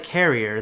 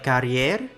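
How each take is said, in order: First: It is said like the English word carrier. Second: It is not said like the English word carrier. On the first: "Or like carrier, the English word?" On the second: "should I pronounce it like carrier?"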